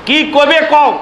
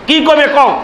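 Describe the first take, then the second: The two takes are said the same way.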